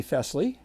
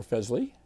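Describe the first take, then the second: First: Fesley with a hissed S, FESS-lee; Fesley rhyming with "dressly"; soft S pronunciation. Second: Fesley with a buzzed Z, FEZ-lee; Fesley with Z in place of S; Z pronunciation. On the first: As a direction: say Fesley with an unvoiced S. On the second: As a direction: say Fesley as "Fezley", rising. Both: Shown as a demonstration. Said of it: "you know how we pronounce stuff here".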